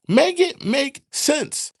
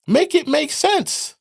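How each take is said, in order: First: Slow, drawn-out and loud, every word weighted; slow emphatic. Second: Higher, louder demand; exasperated. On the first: Repeating the demand to the audience, slow and loud. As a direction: lean on each word of Make it make sense. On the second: Ranting viewer demanding sense, loud and exasperated. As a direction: throw it out in disbelief. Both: Real, not acted.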